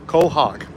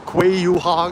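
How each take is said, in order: First: The word starts with a plain 'co' sound. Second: The word starts with a 'kw' sound. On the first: The speaker is from the area. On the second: The speaker is not from the area.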